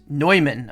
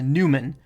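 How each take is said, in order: First: The first syllable sounds like 'noy'. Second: The first syllable sounds like 'new'. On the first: The speaker calls it right. "oi sound as in noise" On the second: The speaker calls it wrong. "noobs may pronounce it as a Newman"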